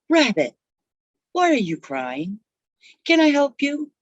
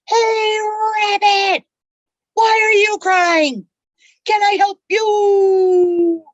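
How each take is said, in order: First: It is said at a quiet, normal volume. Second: It is yelled at the top of the lungs.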